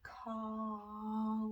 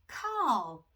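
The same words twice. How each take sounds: First: The word is drawn out slowly. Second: The word is said quickly. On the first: "Let's say it slow" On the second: "let's say it fast"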